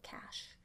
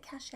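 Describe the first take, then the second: First: Cache with no vowel after the "sh"; cache as "cash". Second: Cache with a long "ay" ending; cache as "cashay". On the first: Host offering the other pronunciation, cache said as "cash". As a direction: say cache in one syllable, like "cash". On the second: Host questioning how to pronounce it, cache said as "cashay". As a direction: say cache in two syllables, "ka-SHAY". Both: Shown as a demonstration. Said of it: "Is it cache or is it cache?".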